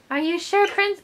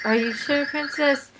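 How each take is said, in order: First: High, put-on princess voice; her high voice. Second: Not her voice. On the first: Character questioning the princess, mistakenly in her high voice. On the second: Acted. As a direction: ask it nearer your own pitch, in character. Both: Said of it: "Oh, that's her voice".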